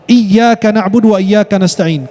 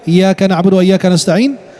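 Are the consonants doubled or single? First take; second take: doubled; single. First: The doubled consonants are held long. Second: The consonants are short, not held long. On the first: Only to God we worship and ask for help. The speaker calls it right. "kalau tidak ditekankan ditasydid akan merubah makna" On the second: Only to sunlight we worship and ask for help. The speaker calls it wrong. "Kalau dibaca tanpa tasydid"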